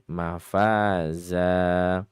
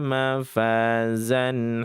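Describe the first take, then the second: First: The word ends on a plain vowel. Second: The word ends with an added n sound. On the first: The reader stops after this word. "Bukan mafazan kalau memang berhenti ya" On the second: The reader continues into the next word. "Kecuali kalau memang diwasalkan"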